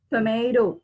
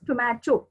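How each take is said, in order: First: "tomato" as tuh-may-doh; American-style "tomato", long A sound; American pronunciation. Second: "tomato" as tuh-mah-toh; British-style "tomato", no ay sound; British pronunciation. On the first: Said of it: "say in American as tomato". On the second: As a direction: say "tomato" with an open a and hard t. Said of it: "and in British". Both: Shown as a demonstration.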